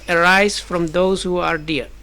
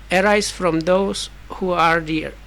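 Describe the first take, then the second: The two takes are said the same way.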